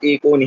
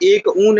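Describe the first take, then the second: First: The two parts are merged into one word. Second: The two parts are said separately, unjoined. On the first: The speaker calls it right. "हमको एकोन ही कहना पड़ेगा" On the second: The speaker calls it wrong. "हम एक ऊन ऐसे नहीं बोल सकते"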